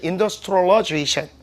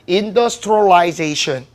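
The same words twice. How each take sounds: First: It is said in an American accent. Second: It is said in a British accent. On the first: "미국식은" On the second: "영국식은요"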